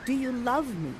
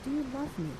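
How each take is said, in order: First: Said in the usual way. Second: Much softer, almost hushed question; soft, tender asking. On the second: Shown as a demonstration. Miranda quietly asks Ferdinand if he loves her. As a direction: ask it gently under your breath. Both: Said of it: "she asks".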